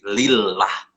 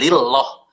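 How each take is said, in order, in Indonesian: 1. Bunyi L-nya ringan dan tipis. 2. Bunyi L-nya berat dan tebal. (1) "tarkik ... tapi lillah" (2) "bukan lillah"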